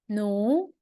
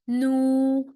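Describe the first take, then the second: First: The pitch rises from mid to high. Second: The pitch stays high and level. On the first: "second tone" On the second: "and the first tone"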